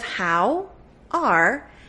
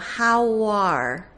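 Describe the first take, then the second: First: The words are said separately without linking. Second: The words run together with a linking w sound. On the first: "Instead of" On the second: "you know that you can link it"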